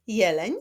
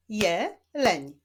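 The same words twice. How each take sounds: First: Said in the usual way. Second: "jeleń" split as je... leń; syllable by syllable. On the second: Shown as a demonstration. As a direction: clap out "jeleń" in two separate beats. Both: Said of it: "Wyklaszczmy sylaby w tych wyrazach".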